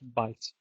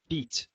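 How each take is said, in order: First: The vowel is an eye sound. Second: The vowel is a long ee sound. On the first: This is the later pronunciation. "shifted to be pronounced bite" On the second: This is the older pronunciation. "bite used to be pronounced beat"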